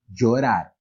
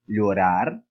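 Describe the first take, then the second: First: The ll sounds like the j in jeans. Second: The ll sounds like a palatal lh sound. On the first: "ele teria o som de um D com J" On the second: "ele poderia ter aquele som do nosso dígrafo L H do português"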